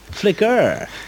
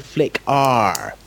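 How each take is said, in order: First: The ending is a short, weak 'er' sound. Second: The ending sounds like the letter R. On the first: The speaker calls it right. "now, all of a sudden, it's Flicker" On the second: The speaker calls it wrong. "it's always been Flick R from you"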